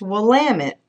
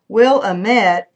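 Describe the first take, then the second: First: It is said the local Oregon way. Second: It is said the non-local way. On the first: The speaker calls it right. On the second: The speaker calls it wrong.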